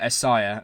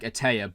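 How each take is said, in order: First: The middle consonant is an s sound. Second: The middle consonant is a t sound. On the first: The speaker calls it right. "but it's actually uh, Esaya" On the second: The speaker calls it wrong. "I was saying it's E T A I and calling it like Atea"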